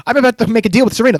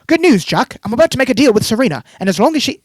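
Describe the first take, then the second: First: Rushed, louder mock of Diana's phone call. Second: Put-on a higher, louder British accent; a British accent read as a smug villain's phone call. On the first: Mocking how the show writes Diana's dialogue, a fast, louder parody. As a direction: gabble the line as a parody of the dialogue. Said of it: "the person that I'm talking to". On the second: Podcaster reading Diana's phone call to Jack, in a higher, louder British accent. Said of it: "you like my British accent?".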